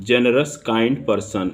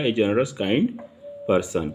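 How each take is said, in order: First: Generous kind person drawn out slowly; slow dictation read. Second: Said in the usual way. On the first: Shown as a demonstration. Teacher reading the example for students, slow and drawn out. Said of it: "क्योंकि जी से उच्चारण है आपका". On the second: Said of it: "इसलिए ए लगेगा".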